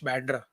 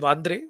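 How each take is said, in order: First: It is said in an English style, starting with B. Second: It is said in a Marathi style, starting with V.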